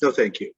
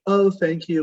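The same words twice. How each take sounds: First: Dismissive thanks. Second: Bright, higher "Oh, thank you" with a lift on "Oh"; friendly but done with it; polite thanks. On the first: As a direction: close the door politely but flatly. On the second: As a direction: brush it off pleasantly, lightly higher. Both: Shown as a demonstration. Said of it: "they take the compliment and they keep moving".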